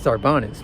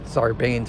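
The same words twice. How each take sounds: First: The name is pronounced with Spanish-style sounds. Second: The name is pronounced with anglicized English sounds. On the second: "New Jersey Buena Vistas or whatever the heck they call them, where it's Sarbanes"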